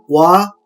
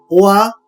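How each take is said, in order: First: The two vowels blend quickly into one syllable. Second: The two vowels are said slowly and separately.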